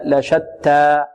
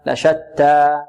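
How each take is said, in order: Both takes have the same delivery.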